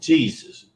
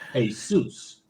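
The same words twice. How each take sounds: First: It is said with the English pronunciation. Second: It is said with a Latin pronunciation. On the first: "in the English pronunciation of the word" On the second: "the Latin derivative"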